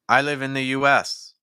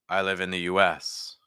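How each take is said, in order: First: The voice sounds thinner and placed higher. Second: The voice sounds fuller and supported lower down. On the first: The speaker calls it wrong. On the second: The speaker calls it right.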